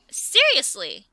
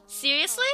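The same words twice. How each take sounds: First: Flat disbelief. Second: Incredulous. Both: Real, not acted. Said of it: "you're just allowing it?".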